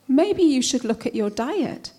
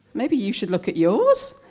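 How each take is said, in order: First: Unsolicited advice. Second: "yours" leaps up at the end; retort stressing "yours". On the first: Adviser's line, then thrown back. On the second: Poet answering diet advice, retort with rising "yours". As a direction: throw it back with a sharp rise on "yours". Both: Acted.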